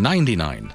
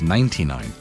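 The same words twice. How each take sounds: First: The T in ninety sounds like a D. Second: The T in ninety is crisp and clear. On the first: The speaker calls it wrong. "you don't spell it with the letter D" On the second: The speaker calls it right. "It's 99"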